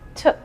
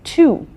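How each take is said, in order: First: The word is cut to a short reduced sound. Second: The word has a full, long vowel. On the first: "Sometimes it is pronounced as t. The sound is only of the T" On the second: "Do you say two all the time?"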